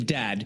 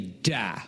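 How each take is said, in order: First: The word ends with a clear d sound. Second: The word ends on a full open vowel. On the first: "instead of saying dad, which is very long" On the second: "we just say da, which is short"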